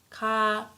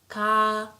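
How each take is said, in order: First: The vowel is held long. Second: The same.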